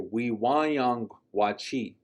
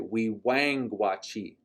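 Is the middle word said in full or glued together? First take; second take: full; glued. First: The middle word keeps all its syllables. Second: The middle word is merged into one syllable. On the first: "that's why we'll say" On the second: "a lot of times our speakers will say"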